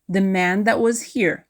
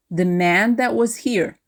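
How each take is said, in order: Both takes have the same delivery.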